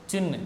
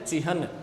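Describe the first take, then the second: First: The n sound comes before the h sound. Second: The h sound comes before the n sound. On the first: The speaker calls it wrong. "ये गलत होता है" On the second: The speaker calls it right. "बोलने की आदत हमें ये डालनी है"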